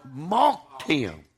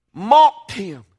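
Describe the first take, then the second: First: Said in the usual way. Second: MOCKED thrown out very loud; outraged emphasis. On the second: Real, not acted. Preacher retells the mocking of Christ, MOCKED cried out loud. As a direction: hit MOCKED hard, then drop on him. Passion retold, repeated in outrage.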